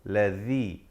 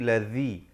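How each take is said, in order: The two takes are said the same way.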